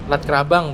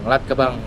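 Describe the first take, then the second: First: The R sound in the name is pronounced. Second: The R sound in the name is dropped. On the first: The name as the speaker said it. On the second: The name as a local taxi driver said it.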